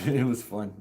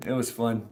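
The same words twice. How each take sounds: The two takes are said the same way.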